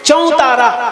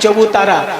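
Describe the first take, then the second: First: The word is said as chautara. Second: The word is said as chabutara. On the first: This is the Hindi pronunciation. "হিন্দিতে উচ্চারণটা হচ্ছে চৌতারা" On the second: This is the written Bengali form. "বাংলায় লিখছেন চবুতারা বলে"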